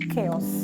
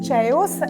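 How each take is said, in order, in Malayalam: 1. ഈ വാക്ക് 'k' ശബ്ദത്തിലാണ് തുടങ്ങുന്നത്. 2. ഈ വാക്ക് 'ch' ശബ്ദത്തിലാണ് തുടങ്ങുന്നത്.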